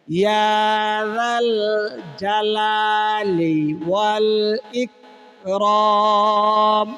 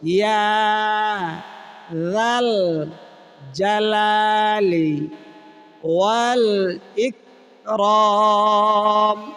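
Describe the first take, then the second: First: It is said in one breath without pausing. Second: It is said in small pieces with pauses.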